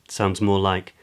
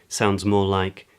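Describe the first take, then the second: No difference in how they are said.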